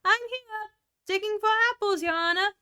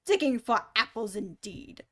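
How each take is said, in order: First: Much higher, louder servant voice; new character voice. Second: Angry. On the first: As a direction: pipe up like an eager little servant. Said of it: "a voice that she had never heard before". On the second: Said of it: "said the rabbit angrily". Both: Acted.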